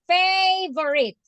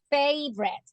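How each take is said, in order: First: The word is said with three syllables. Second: The word is said with two syllables. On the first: The speaker calls it wrong. "Three. ... that's the way you separate it" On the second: The speaker calls it right. "Favorito in English has two syllables. And the correct pronunciation is favorite"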